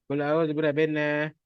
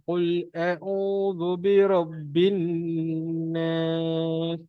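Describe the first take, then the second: First: The nasal sound before 'nas' is cut short. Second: The nasal sound before 'nas' is held long. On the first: The speaker calls it wrong. "bukannya baca ... itu biasanya lah orang malas baca" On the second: The speaker calls it right. "kita kena dengung dekat situ"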